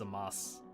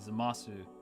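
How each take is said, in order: First: The word ends on s with no vowel. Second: The word ends with a clear final u vowel. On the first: The speaker calls it right. "It's Zamas" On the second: The speaker calls it wrong. "it's not actually Zamasu"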